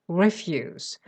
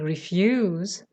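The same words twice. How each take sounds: First: The stress is on the first syllable. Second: The stress is on the second syllable. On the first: It means things no longer of use. "putting the stress on the first syllable and also changing the pronunciation from E to A" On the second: It means declining to do something. "Instead of saying refuse"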